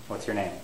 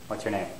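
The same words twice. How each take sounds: No difference in how they are said.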